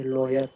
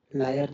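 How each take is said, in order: First: लॉयर with a rounded "law" first syllable; correct pronunciation. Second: लायर with an open "laa" first syllable; wrong pronunciation. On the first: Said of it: "लॉयर होता है". (लॉयर में गोल "लॉ" बोलकर) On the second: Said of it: "लायर नहीं बोलते इसको". (लायर में खुला "ला" बोलकर) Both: Shown as a demonstration.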